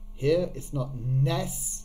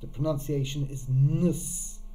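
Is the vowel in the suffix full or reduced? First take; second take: full; reduced. First: The suffix has a full 'e' vowel. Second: The suffix has a reduced schwa vowel. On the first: The speaker calls it wrong. "it looks like it's nes" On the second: The speaker calls it right. "that schwa, that uh sound"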